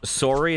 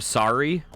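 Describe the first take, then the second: First: It is said with a Canadian pronunciation. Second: It is said with a general pronunciation. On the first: This is how the speaker says it. "the biggest is sorry" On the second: This is how others say it. "instead of sorry"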